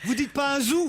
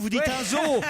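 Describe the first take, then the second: First: The word ends with an 'oo' vowel. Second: The word ends with an 'oh' vowel. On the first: The speaker calls it wrong. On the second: The speaker calls it right. "Donc ça aurait pu être bambo"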